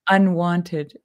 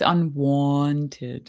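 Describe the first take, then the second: First: The middle vowel sounds like the word want. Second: The middle vowel sounds like the word wont. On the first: It means not wanted by anyone. The speaker calls it wrong. "They'll think unwanted" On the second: It means unaccustomed or unusual. The speaker calls it right. "but it's unwanted"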